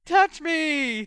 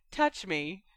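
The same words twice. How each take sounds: First: Mock swooning falsetto, loud; high-pitched cry. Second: Said in the usual way. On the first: A narrator's reading. George mocking Hermione's letter, high-pitched cry. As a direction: cry it in a high, girlish mockery. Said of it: "cried in a high-pitched voice".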